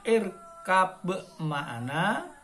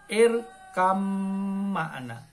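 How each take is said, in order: First: A separate b sound is heard before ma'ana. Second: The b merges into a doubled m sound. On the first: "tulisannya irkab ma'ana" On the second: "dibaca irkam ma'ana. Kam ma'ana, melebur"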